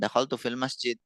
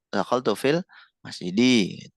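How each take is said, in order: First: The last word ends with no final vowel. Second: The last word ends with an i vowel. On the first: "disukun-sukun aja" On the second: "yang benar"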